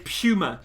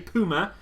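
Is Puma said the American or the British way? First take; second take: British; American. First: Puma is said the British way. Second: Puma is said the American way. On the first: "the Americans get triggered if I say Puma" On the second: "The Brits get triggered if I say Puma"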